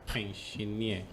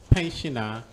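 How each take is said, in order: First: The word ends with a stressed 'eer' sound. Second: The word ends with a short unstressed 'er' sound. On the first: The speaker calls it wrong. "they say pensioner" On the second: The speaker calls it right. "instead of pensioner"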